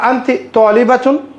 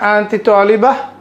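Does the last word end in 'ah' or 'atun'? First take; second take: atun; ah. First: The last word ends with the full 'atun' ending. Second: The last word ends in a plain 'ah' sound. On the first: "শেষের যে হারাকা এটা উচ্চারণ করব" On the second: "যদি আমরা সাউন্ডটা ছেড়ে দেই তাহলে সাধারণত আরবিতে কি হয়?"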